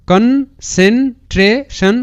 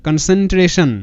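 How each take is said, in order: First: Very slow, higher, each syllable separate. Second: Said in the usual way. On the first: Shown as a demonstration. Teacher assembles the split word for students, syllable by syllable. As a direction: sound out concentration in parts with pauses. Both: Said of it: "এরকম করে উচ্চারণটা করবে".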